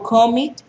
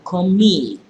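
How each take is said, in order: First: The stress is on the first syllable. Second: The stress is on the second syllable. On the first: The speaker calls it wrong. "Yo no digo commit" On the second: The speaker calls it right. "sino commit"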